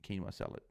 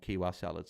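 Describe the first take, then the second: First: Quinoa said KEEN-wah; corrected word. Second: Kiwa salad said as KEE-wah salad; misread word. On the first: Streamer correcting his misread of a viewer's dinner, KEEN-wah. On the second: Streamer misreading a viewer's dinner, KEE-wah. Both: Shown as a demonstration. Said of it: "I read that wrong".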